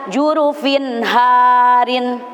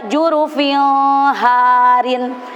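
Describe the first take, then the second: First: The n sound before harin is clear. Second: The n sound before harin is blurred. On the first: The speaker calls it right. "tapi dibaca" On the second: The speaker calls it wrong. "tidak boleh dibaca"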